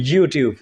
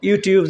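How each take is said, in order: First: ইউটিউব starting with a consonant Y glide; Y-sound YouTube. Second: ইউটিউব opening on two loose vowels, without Y; vowel-start YouTube. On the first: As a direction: say ইউটিউব as yoo-tiub. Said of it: "আসলে ওয়াইয়ের উচ্চারণ হলো". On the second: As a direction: say ইউটিউব as ee-oo-tiub. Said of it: "আসলে ওয়াইয়ের উচ্চারণ হলো ইউটিউব". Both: Shown as a demonstration.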